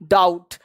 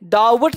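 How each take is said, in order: First: The b sound is silent. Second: The b sound is pronounced. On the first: The speaker calls it right. "बी को क्या रखना है, silent रखना है" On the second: The speaker calls it wrong. "डाउट नहीं"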